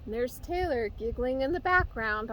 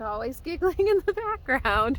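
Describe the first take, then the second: First: Said in the usual way. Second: Laughing through the words. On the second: Real, not acted. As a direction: giggle while saying it. Repeats line, laughing this time.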